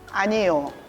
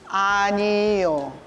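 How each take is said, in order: First: It is said quickly. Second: It is said slowly.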